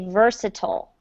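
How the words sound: It is said with an American pronunciation. "in the United States we say versatile"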